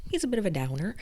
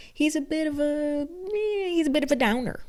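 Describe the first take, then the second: First: Said in the usual way. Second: Much higher, mocking sing-song. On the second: Reviewer mocking book Louis as a downer, high mock voice.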